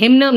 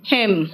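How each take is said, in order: First: हिम्न with an N released after the M; N wrongly sounded. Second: हिम ending on M; silent N. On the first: Teacher showing what not to say, हिम्न with final N. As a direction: add an audible N to the end of हिम्न. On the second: Teacher giving the word for mantra, हिम without final N. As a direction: close हिम on the M, no N after it. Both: Shown as a demonstration. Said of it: "हिम्न नहीं कहते".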